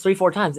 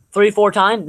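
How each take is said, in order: First: Said in the usual way. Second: Real voice crack, a little high. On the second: Real, not acted. Sports podcaster counting games against the Warriors, voice cracking. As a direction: let the voice crack mid-phrase. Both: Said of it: "That voice crack".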